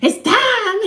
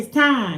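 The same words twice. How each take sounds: First: It is said very loudly, almost shouted. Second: It is said at normal volume.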